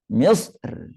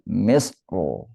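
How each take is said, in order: First: The final r is pronounced thin and light. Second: The final r is pronounced thick and heavy. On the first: "kalau tarqiq bacanya" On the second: "lebih utama baca tebal"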